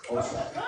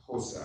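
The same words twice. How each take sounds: First: Hosa begun with an attempted tongue click. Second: Said in the usual way. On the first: Shown as a demonstration. Host retrying the language name for the audience, click on Hosa. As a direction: have another go at clicking the start of Hosa. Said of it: "Wait a minute". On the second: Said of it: "don't know if I'm pronouncing it correctly".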